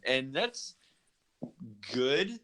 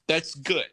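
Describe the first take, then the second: First: Hesitant pause, then GOOD with a rising tune; questioning inflection. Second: GOOD falling firmly, like a statement; corrected take, GOOD landing decisively downward; affirming inflection. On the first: Real, not acted. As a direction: let GOOD rise as if unsure. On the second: Shown as a demonstration. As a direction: say it louder and end GOOD on a fall. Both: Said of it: "I put the wrong inflection".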